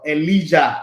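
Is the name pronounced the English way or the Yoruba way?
Yoruba. The name is said with a Yoruba pronunciation.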